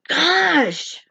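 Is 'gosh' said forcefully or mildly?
forcefully. It is said forcefully, with exasperated emphasis. The speaker really means it. "like Napoleon Dynamite, okay? That's how I'm saying it"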